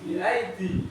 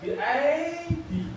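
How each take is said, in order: First: The ya sound is kept short. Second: The ya sound is drawn out long. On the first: The speaker calls it right. "Tapi tetap pendek ya" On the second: The speaker calls it wrong. "kalau ya-nya dua panjang"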